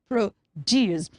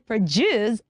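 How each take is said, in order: First: The d sounds like d, first vowel full. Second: The d sounds like j, first vowel weak. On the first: The speaker calls it wrong. "and not produce" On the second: The speaker calls it right. "So we say produce"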